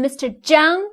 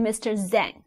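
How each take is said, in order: First: The name starts with a j sound and open ang. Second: The name is read with English letter sounds. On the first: The speaker calls it right. "So you call someone Mister Zhang" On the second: The speaker calls it wrong. "you should not call someone Mister Zhang"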